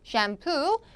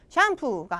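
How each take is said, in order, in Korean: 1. 강세는 마지막 음절에 있어요. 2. 고르게 발음해요, 마지막 음절에 강세는 없어요. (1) "얘만 뒤쪽이에요" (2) "샴푸가 아니고"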